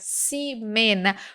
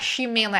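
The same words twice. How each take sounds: First: The first sound is an s sound. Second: The first sound is not an s sound. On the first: The speaker calls it right. "era Ximena, porque o X estava no começo da palavra" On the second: The speaker calls it wrong. "não era Ximena"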